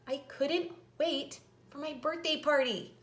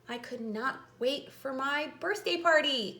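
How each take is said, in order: First: Could not is shortened into one word. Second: Could not is said as two full words.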